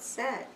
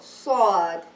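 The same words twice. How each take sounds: First: It is said plainly, like the English word. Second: It is said emphatically with a full, deep mouth. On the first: The speaker calls it wrong. "like a word sad" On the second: The speaker calls it right. "I should make my, my mouth full"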